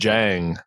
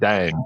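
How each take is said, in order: First: The name begins with a J sound. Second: The name begins with a D sound. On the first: The speaker calls it right. "it's actually pronounced Jang" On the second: The speaker calls it wrong. "not Dang"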